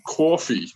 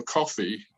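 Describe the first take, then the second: First: "coffee" as Boston "cawfee"; Boston accent. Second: Said in the usual way. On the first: Shown as a demonstration. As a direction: give "coffee" a broad Boston "aw" vowel. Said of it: "you're gonna say coffee". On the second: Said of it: "want to order a coffee".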